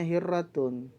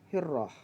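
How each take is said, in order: First: The word ends with a full -tun syllable. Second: The word ends with a short -ah sound. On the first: This is the form as it is written. "Tulisannya hirratun" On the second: This is the form as it is spoken. "tapi pengucapannya adalah hirrah"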